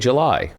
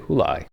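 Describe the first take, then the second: First: The word begins with a J sound. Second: The word begins with an H sound. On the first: The speaker calls it right. "we say July" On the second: The speaker calls it wrong. "We don't say Hulai"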